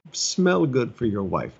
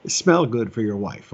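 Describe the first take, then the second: First: "Smell" stressed, whole line slowed; slow it down and drive "Smell" home; slow emphatic repeat. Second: "smell" leaned on, then falling off on "wife"; stress on smell. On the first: Pastor repeating his advice to husbands, slower, stressing "Smell". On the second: Pastor nudging the men in the congregation, leaning on "smell". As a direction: press the word "smell" as a plain instruction. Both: Shown as a demonstration. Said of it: "I'll just slide that one in there".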